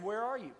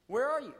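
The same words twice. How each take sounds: First: Said in the usual way. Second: A louder call, pitched higher. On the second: A narrator's reading. God calls again to the hiding man, louder. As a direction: call out to find him. But the Lord God called.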